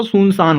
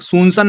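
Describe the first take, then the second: First: सुनसान ending in a long saan; correct reading. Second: सुनसान with the last vowel cut short, as san; wrong reading. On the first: Teacher giving the right reading, long final saan in सुनसान. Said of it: "सुनसान होता है". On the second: Teacher rejecting a misreading, short final san in सुनसान. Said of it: "सुनसान नहीं होता". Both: Shown as a demonstration.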